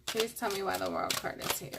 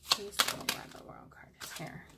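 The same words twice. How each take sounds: First: Said in the usual way. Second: Hushed, whispered plea; whispered request. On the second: Real, not acted. Reader asking the cards about the World card, whispering. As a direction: whisper it under your breath.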